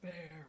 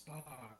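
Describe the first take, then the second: First: The vowel sounds like the one in 'air'. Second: The vowel sounds like the one in 'car'. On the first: The speaker calls it wrong. "it's not bear" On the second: The speaker calls it right. "it's bar"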